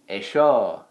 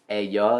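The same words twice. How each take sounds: First: The double L is said the Argentine way. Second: The double L is said the usual Spanish way. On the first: "in Argentina they speak weird, so they don't say... they'd say ello" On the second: "they wouldn't say ello"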